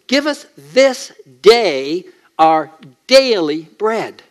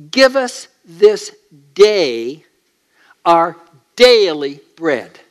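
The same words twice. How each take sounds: First: Daily leaned on, slow and weighty; slow prayer with daily stressed. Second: Each word given slowly and weightily; slow, solemn quoting; slow deliberate prayer. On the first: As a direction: press hard on the word daily. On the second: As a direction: let the prayer land slow and heavy. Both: Shown as a demonstration. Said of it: "The double emphasis on daily".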